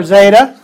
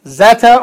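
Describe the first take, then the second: First: Zeta as "ZAY-tuh"; long-A zeta. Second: Zeta as "ZET-uh"; short-E zeta. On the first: Teacher gives the alternative option, long-A zeta. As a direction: say zeta with an "ay" vowel. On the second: Teacher gives the first option, short-E zeta. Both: Shown as a demonstration. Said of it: "zeta or zeta".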